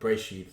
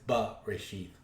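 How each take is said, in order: First: The b runs straight into r without a vowel. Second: A short vowel is heard after the b. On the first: The speaker calls it wrong. "So it's not just uh, uh, breshith" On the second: The speaker calls it right. "It's it's ba breshith"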